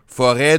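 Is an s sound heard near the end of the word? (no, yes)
no. No s sound is heard near the end. "Forêt devient forest"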